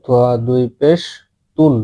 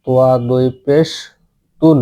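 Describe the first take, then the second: No difference in how they are said.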